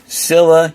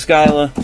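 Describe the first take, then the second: First: The name begins with a plain s sound. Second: The name begins with an sk sound. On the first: "even if that is the correct pronunciation" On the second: "I pronounce it as Skyla"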